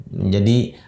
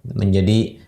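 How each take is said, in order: No difference in how they are said.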